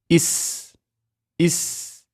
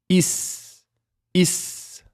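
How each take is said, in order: Both takes have the same delivery.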